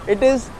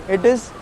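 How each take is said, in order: The two takes are said the same way.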